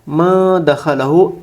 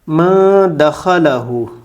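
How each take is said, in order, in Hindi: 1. 'n' की ध्वनि हल्की नासिका ध्वनि के साथ छिपी रहती है। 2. 'n' की ध्वनि हल्की नासिका ध्वनि के साथ छिपी रहती है।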